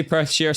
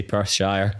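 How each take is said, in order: First: "Perthshire" ending in "sheer"; own pronunciation. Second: "Perthshire" ending in "shire", rhyming with fire; Glasgow pronunciation. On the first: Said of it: "I'd say Perthshire". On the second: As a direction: say "Perthshire" like "Pers-shyer". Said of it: "Someone from Glasgow might say". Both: Shown as a demonstration.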